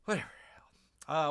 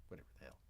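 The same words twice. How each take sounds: First: Said in the usual way. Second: Very soft, low under-the-breath remark; muttered aside. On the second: Real, not acted. Streamer grumbling about the Minecraft movie, muttered. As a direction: grumble it to yourself. Muttered then repeated aloud.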